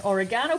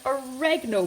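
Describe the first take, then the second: First: Said in the usual way. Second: Oregano stressed on a short "REG", higher pitched; American pronunciation. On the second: Shown as a demonstration. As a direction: hit the second syllable of oregano, "o-REG-ano", American style. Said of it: "if you're from the States".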